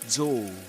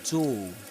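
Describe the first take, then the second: Both takes have the same delivery.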